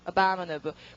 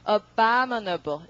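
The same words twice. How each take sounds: First: The word is said quickly. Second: The word is drawn out slowly. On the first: The speaker calls it right. "빨리 제대로 그 사람들이 하는 것처럼" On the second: The speaker calls it wrong. "발음을 이렇게 길게 안 하니까"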